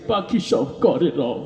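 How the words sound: It is recited while crying, in a tearful voice. "কান্দি দিয়ে কইতে আছে"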